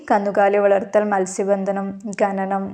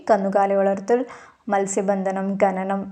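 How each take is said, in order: No difference in how they are said.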